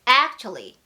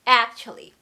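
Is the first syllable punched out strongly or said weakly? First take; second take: strongly; strongly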